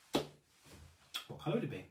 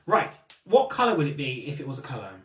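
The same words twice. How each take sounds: First: Slow, breathy repeat of the question; whispered. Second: Said in the usual way. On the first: Real, not acted. Host whispering her question to the live chat. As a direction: lean in and whisper it again.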